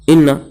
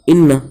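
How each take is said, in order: Both takes have the same delivery.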